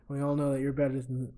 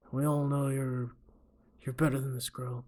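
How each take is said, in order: First: Said in the usual way. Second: Measured tough-guy coach; a lightly put-on movie tough guy, held back; Clint Eastwood. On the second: Coach advising his fighter, Clint Eastwood impression. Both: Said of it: "what's a good Clint Eastwood impression".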